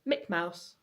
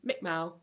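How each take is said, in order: First: The second syllable of the first word is dropped. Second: A syllable and the final consonant are both dropped. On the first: This is how a young child says it. "Clark would say Mick Mouse" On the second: This is an even less developed child pronunciation. "or even Mick Mow"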